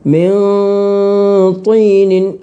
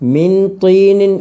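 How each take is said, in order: First: The n is hidden with a nasal hum. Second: The n is pronounced clearly and fully. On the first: The speaker calls it right. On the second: The speaker calls it wrong.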